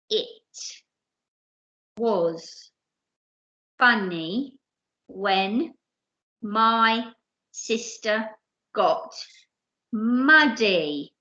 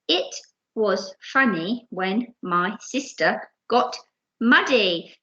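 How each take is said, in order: First: It is read at a normal, steady speed. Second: It is read a bit faster.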